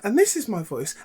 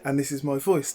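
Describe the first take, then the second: First: The voice is held at a higher pitch. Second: The voice is released to a lower pitch. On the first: This is the trained, worked-on voice. "I can take it up here, and then I talk up here" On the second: This is the natural untrained voice. "if I release that, my voice is actually down here"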